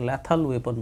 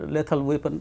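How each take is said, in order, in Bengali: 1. প্রথম স্বরধ্বনিটি 'cat' শব্দের a-এর মতো শোনায়। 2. প্রথম স্বরধ্বনিটি 'let' শব্দের e-এর মতো শোনায়।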